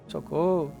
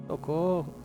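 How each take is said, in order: No difference in how they are said.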